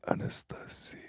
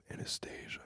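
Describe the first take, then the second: First: Whispered "Anastasia" the Russian way; Russian pronunciation. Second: Whispered "Anastasia" the English way; English pronunciation. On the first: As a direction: whisper "Anastasia" with Russian vowels and "see-ya" ending. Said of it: "how you say it in Russian". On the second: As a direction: whisper "Anastasia" with an English "stay-zha" ending. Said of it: "That's how you say it". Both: Shown as a demonstration.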